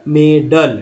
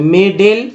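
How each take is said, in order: First: "मेडल" ending in a short uh, "may-dull"; schwa second vowel. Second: "मेडल" with long E in both syllables, "may-dale"; wrong uniform vowel. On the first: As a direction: give "मेडल" an अ sound after ड. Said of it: "ड में अ लग गया". ("मेडल" में ड के साथ छोटा अ) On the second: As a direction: give "मेडल" a second ए sound, like मेडेल. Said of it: "ये सभी जगह ए उच्चारण करेंगे". ("मेडल" को मेडेल जैसा, हर जगह ए बोलते हुए) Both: Shown as a demonstration.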